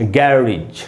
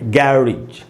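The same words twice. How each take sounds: First: The second vowel is a short 'ih'. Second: The second vowel is a short 'ih'.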